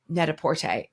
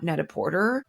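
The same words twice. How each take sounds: First: Porter is pronounced the French way. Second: Porter is pronounced the English way. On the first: The speaker calls it right. "The whole idea was based on pret-a-porter, which is the French word" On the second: The speaker calls it wrong. "It is not Net-a-Porter. Please don't say that because it's just not correct"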